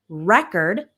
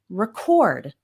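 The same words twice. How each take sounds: First: The stress is on the first syllable. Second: The stress is on the second syllable. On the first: It is used as a noun. "that's the noun" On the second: It is used as a verb. "the verb record"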